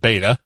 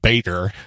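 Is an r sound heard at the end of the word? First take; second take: no; yes. First: It ends without an r, New England style. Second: It ends with an r sound, American style.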